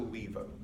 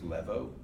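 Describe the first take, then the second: First: The first vowel is a long ee sound. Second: The first vowel is a short eh sound. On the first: The speaker calls it right. "The word is still levo" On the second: The speaker calls it wrong. "mispronounce that as levo"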